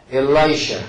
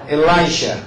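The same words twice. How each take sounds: The two takes are said the same way.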